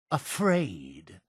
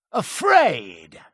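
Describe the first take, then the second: First: Soft, low, questioning echo; quiet disbelief. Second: Indignant outburst falling at the end; indignant exclamation. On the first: Accused of being afraid, quiet disbelief. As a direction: echo the word softly, lifting at the end. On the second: Accused of being afraid, indignant retort. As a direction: throw the word back, affronted. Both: Acted.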